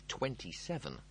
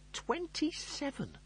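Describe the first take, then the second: First: Said in the usual way. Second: High, slow outraged cry of twenty-seven; appalled shriek at the number; horrified disbelief. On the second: Acted. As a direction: squeal it like it's a death sentence. Lister's horrified inner echo.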